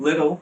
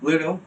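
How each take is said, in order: The two takes are said the same way.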